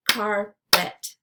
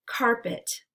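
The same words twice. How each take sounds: First: "Carpet" as two separate beats, Car – pet; syllables split apart. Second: Said in the usual way. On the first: Shown as a demonstration. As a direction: say "Carpet" syllable by syllable, pausing between. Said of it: "break it into the syllables". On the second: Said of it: "repeat the word".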